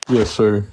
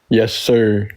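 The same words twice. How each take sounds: First: It is said with low energy. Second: It is said with high energy.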